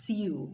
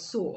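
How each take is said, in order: First: The word is said unlike 'so'. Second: The word is said exactly like 'so'. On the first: The speaker calls it wrong. "I hear some people pronounce this as sew, but no" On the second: The speaker calls it right. "it is so"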